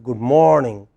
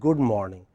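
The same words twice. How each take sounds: First: The stress is on the first syllable of morning. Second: The stress is on the second syllable of morning. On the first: The speaker calls it right. "the first syllable in the word morning, which is stressed" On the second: The speaker calls it wrong. "So it's not good morning"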